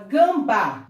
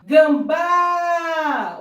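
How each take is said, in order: First: Said in the usual way. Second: "Gambá" called out high and loud, BÁ held long; ringing "Gambá" with a very long last syllable; stressed last syllable. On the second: Shown as a demonstration. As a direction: stretch the final á of "Gambá" in a loud call. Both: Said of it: "Olha a sílaba tônica aí".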